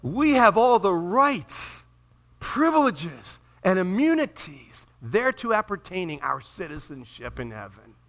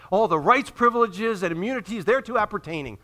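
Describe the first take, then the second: First: Slow, ringing declaration; grand proclamation. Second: Lively recital of official wording; relishing formal wording. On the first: Real, not acted. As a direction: proclaim it grandly, drawing out each item. Proclaims diploma wording as believers' own. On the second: Acted. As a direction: roll off the official phrase with relish. Repeats diploma phrase with relish.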